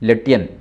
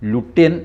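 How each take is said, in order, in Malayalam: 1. ആദ്യ സ്വരം 'uh' പോലെയാണ് കേൾക്കുന്നത്. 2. ആദ്യ സ്വരം 'oo' പോലെയാണ് കേൾക്കുന്നത്. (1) "അത് ശരിക്കും ഉച്ചരിക്കേണ്ടത് ലട്യൻ എന്നാണ്" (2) "ലുട്യൻ എന്ന് പലരും പറയുന്നു"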